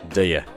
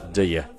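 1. 这两个词被压缩成一个快速的音节。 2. 这两个词被压缩成一个快速的音节。

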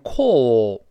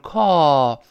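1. 元音是圆唇的，嘴唇撅起。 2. 元音是开口的，嘴唇放松。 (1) "英国人会读成call，它有个撅嘴的o" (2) "美国变成叹气…就是call，懒惰的口型嘛"

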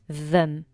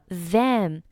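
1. 这个词有一个弱化的元音。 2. 这个词有一个饱满、清晰的元音。

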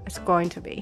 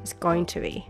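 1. 每个词都完整且单独发音。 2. 每个词都完整且单独发音。

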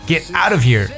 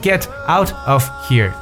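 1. 这些词是连读在一起的。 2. 这些词是一个一个单独说的。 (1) "但是Get out of here" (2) "都不会说Get out of here"

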